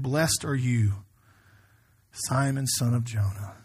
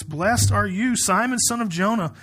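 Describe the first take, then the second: First: Slow, low, measured scripture reading; tender blessing. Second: Brisker, lifted proclamation of a blessing; scripture reading. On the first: Jesus blessing Simon, spoken slowly and tenderly. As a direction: let each phrase of the blessing settle. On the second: Jesus blessing Simon, read out as a clear proclamation. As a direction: proclaim the blessing and keep moving. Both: Acted.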